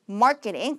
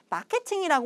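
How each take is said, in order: First: It is said English-style with a tense k. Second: It is said Korean-style with an aspirated k. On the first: The speaker calls it right. "깨가 쏟아진다 할 때 깨" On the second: The speaker calls it wrong. "그건 이제 한국식의 발음이고요"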